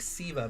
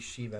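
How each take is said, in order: First: The name begins with an s sound. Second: The name begins with an sh sound. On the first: This is the name as the speaker thinks it is. "I think Siva" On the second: This is how the name is said in Japanese. "Japanese pronunciation would be Shiva because there's no C sound in Japanese"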